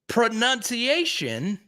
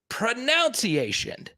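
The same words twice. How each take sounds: First: The middle sounds like "nun", unlike "pronounce". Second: The middle sounds like "nounce", as in "pronounce". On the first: The speaker calls it wrong. "the way to pronounce pronunciation" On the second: The speaker calls it right. "should be pronunciation"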